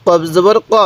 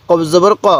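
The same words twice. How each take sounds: The two takes are said the same way.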